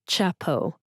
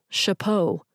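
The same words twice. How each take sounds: First: The word begins with a hard ch sound. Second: The word begins with a soft sh sound. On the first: The speaker calls it wrong. "not chapeau" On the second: The speaker calls it right. "C H makes the sh sound"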